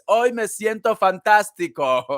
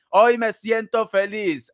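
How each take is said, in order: First: Said in the usual way. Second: Hoy stretched out slowly and sung; slow cheerful chant; slow sing-song. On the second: Shown as a demonstration. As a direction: drawl the line like a happy chant.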